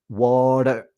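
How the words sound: The T is a quick tongue tap. "it's a tap, ... the tongue taps"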